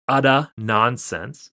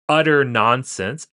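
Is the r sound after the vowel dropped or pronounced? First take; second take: dropped; pronounced. First: The r after the vowel is dropped. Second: The r after the vowel is pronounced.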